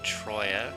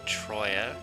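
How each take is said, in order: First: The t and r form one cluster. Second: The same.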